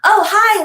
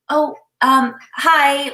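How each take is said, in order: First: The greeting sounds bright and confident. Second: The greeting sounds hesitant and timid.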